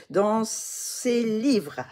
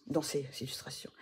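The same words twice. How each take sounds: First: "livres" drawn out, high and loud; emphatic self-correction on LIVRES. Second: Said in the usual way. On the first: Real, not acted. Vlogger correcting a slip to viewers, stretched emphatic "livres". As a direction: hammer out "livres" slowly as the right word.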